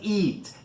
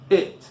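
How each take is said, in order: First: The vowel is long, like "ee". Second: The vowel is short and relaxed. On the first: The speaker calls it wrong. "It é o longo da letra E em inglês" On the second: The speaker calls it right. "aqui é o curto"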